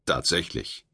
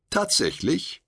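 First: Low, falling, sure "Tatsächlich."; affirming. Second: Rising, doubtful "Tatsächlich?"; questioning. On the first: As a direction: state it flatly as fact. Firm answer in dialogue. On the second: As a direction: ask it in disbelief. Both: A narrator's reading.

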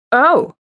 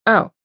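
First: Higher "Oh!" as it clicks; sudden realisation. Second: Said in the usual way. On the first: A narrator's reading. Landon finally grasps her meaning, sudden realisation. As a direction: let the penny drop on a raised "Oh!".

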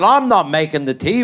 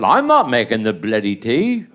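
First: Lightly voiced wife refusing, close to own voice; a stubborn wife flatly refusing to make the tea. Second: Much lower, stubborn refusal; his own gruff refusal. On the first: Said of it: "She said". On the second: Retold or imitated. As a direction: dig in low and stubborn on "not". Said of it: "I said".

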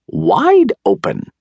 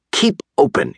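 First: Very high, drawn-out wifely yell; shrieked storybook command, stretched out; yelled order. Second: High but restrained yell; yelled order. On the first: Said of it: "yelled his wife". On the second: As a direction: call the order out high, without real force. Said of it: "yelled Doctor DeSoto". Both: A narrator's reading.

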